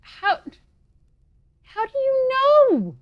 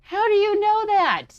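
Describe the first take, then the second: First: Very high, loud and slow; shrill drawn-out disbelief. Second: High, loud startled question; surprised shout. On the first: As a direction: stretch it out in disbelief. Repeats, even more startled. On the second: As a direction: blurt it out in shock. Startled heroine questions robot. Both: Acted.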